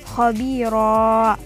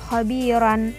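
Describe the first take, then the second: First: The word ends in a lengthened final vowel. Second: The word ends with a short vowel plus n. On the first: The speaker calls it right. "Jadi cara membacanya khabira" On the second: The speaker calls it wrong. "bukan pula dibaca tanwin lagi"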